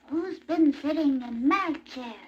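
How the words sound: It is said in a teeny-weeny voice.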